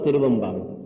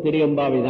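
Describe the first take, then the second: First: The parts are joined by a linking v sound. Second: The two parts are said separately, without linking. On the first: "இணைந்து சொல்லும் போது" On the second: "பிரிச்சு படிக்கும் போது"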